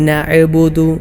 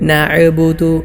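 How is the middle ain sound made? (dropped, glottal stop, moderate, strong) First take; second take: glottal stop; glottal stop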